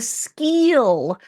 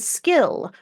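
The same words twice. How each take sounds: First: The vowel is a long 'ee' sound. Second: The vowel is a short 'i' sound. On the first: The speaker calls it wrong. "So she was saying skill" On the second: The speaker calls it right. "rather than skill"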